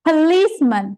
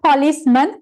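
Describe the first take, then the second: First: The final syllable is short and reduced. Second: The final syllable is a full 'man'. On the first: The speaker calls it right. "මෙතන pronounce වෙන්නේ man" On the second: The speaker calls it wrong. "not policeman"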